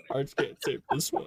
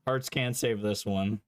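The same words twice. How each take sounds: First: Whispered repeat. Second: Said in the usual way. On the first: Shown as a demonstration.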